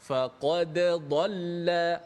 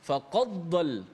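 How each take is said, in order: First: The d is released with a bounce first. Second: The d blends straight into the next consonant. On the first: The speaker calls it right. "bacaan dengan dimatikan dal, mana kena bunyi qalqalah lah" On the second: The speaker calls it wrong. "bunyi kalau kita buat sekali laju dengan dengan tak beri perhatian, dia akan bunyi macam idgham"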